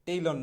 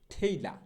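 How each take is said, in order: First: Said in the usual way. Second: ঠেইলা with aspirated ঠ and open "laa", no r; corrected pronunciation. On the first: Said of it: "টেইলর না". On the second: Shown as a demonstration. Teacher modelling tailor for learners, ঠেইলা with aspirated start. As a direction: start ঠেইলা on a puffed "th", drop the r. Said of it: "সঠিক উচ্চারণটা হবে হচ্ছে".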